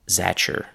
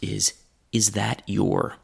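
First: The t and y merge into a ch sound. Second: Every word is said fully and clearly. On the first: "The next form is the most chewing gum like" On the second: "That group of words is that your?"

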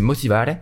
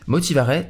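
First: It is said with an Italian accent. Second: It is said with a French accent. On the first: "je le dis à l'italienne" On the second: "si je le dis bien à la française, bien moche"

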